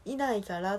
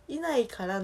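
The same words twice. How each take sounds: First: Said in the usual way. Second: いないから with a Kansai lilt, higher pitch; いないから sung up in Osaka intonation; いないから said the Kansai way, raised and lilting. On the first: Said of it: "この言葉のチョイスとかも今". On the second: Shown as a demonstration. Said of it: "のイントネーションは多分関西弁なんやけど".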